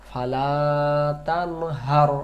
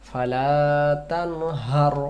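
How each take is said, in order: Both takes have the same delivery.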